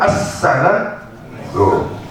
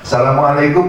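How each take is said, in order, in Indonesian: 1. Ucapan salam itu diucapkan dengan hati-hati dan tepat. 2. Ucapan salam itu diucapkan seenaknya dan sembarangan. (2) "Seenak aja"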